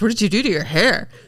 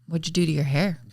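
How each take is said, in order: First: It is said with lively, excited intonation. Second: It is said in a flat monotone. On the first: The remark sounds genuinely interested. "it wasn't like" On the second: The remark sounds uninterested or disapproving. "in the most like monotone"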